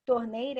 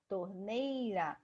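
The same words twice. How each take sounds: First: Said in the usual way. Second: "Torneira" drawn out slowly on the middle syllable NEI; stress on NEI. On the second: Shown as a demonstration. Teacher showing the strongest syllable, "Torneira" slowly stretched on NEI. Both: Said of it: "o nei é a mais forte".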